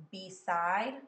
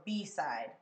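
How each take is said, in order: First: Beside as be-SIDE, rising and louder on side; stress on second syllable. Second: Beside wrongly as BE-side, falling; stress on first syllable. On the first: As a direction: hit the last syllable of Beside. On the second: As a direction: lean on be and drop the end of beside. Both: Shown as a demonstration. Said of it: "decide which syllable".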